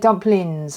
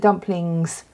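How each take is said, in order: First: The final G sound is dropped. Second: The final G sound is clearly pronounced. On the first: The speaker calls it right. "You say dumplings" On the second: The speaker calls it wrong. "you don't say the dumplings"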